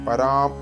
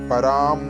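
The two takes are said the same way.

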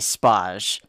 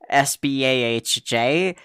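First: It is pronounced as a single word. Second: It is spelled out letter by letter. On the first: "I pronounce it as though it's a word" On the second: "It is an acronym, so you might you probably should say SBAHJ"

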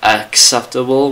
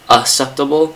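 First: It is said with a k sound. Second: It is said with no k sound. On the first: The speaker calls it right. "it's actually acceptable with the first C being silent" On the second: The speaker calls it wrong. "not even pronouncing the second C"

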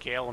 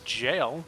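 First: The word begins with a hard G sound. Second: The word begins with a J sound. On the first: The speaker calls it wrong. "I just said gale" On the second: The speaker calls it right. "Correct pronunciation, please"

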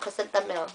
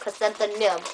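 First: The consonant before the last syllable is m. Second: The consonant before the last syllable is n. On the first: This is how the flower's name is said. "not chrysanthemum" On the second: This is how the baby's name is said. "we change it to an N instead of an M, so it's actually chrysanthemum"

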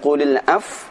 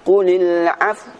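First: The word ends without any rounded 'w' sound. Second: The word ends with an audible rounded 'w' sound. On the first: The speaker calls it wrong. "Bukan qulil af" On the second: The speaker calls it right. "namun qulil af. Ada makhraj huruf waw yang ditampakkan"

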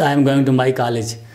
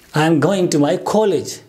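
First: The first vowel of college sounds like ah. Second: The first vowel of college sounds like o. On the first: The speaker calls it wrong. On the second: The speaker calls it right. "The actual sound is this one, O"

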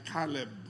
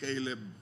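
First: The name is given a Hebrew pronunciation. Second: The name is given an English pronunciation. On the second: "Sa English, Caleb"

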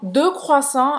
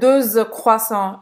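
First: Deux is said separately, with no z sound. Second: A z sound links deux to croissants. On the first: The speaker calls it right. "2 croissants aqui" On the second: The speaker calls it wrong. "eu não vou dizer 2 croissants, eu não vou fazer a liaison"

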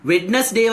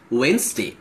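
First: The first 'd' is sounded, as spelled. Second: The first 'd' is silent, said 'Wenz-day'. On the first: The speaker calls it wrong. "Wednesday වගේ තිබ්බට" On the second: The speaker calls it right. "we pronounce it as Wednesday"

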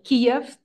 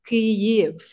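First: The name is said with its Russian pronunciation. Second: The name is said with its Ukrainian pronunciation. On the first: The speaker calls it wrong. "that is the Russian pronunciation" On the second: The speaker calls it right. "Ukrainian pronunciation is Kyiv"

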